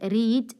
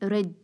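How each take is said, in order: First: The vowel is long, like in 'reed'. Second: The vowel is short, like in 'red'. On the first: It is the present form of the verb. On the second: It is the past form of the verb.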